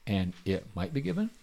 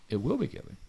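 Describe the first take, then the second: First: Questioning rise on "might be given"; doubtful misquote. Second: Soft stress on "will"; assured correction. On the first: Deliberate misquote, then corrected. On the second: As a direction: quietly correct it, leaning on "will". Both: Shown as a demonstration.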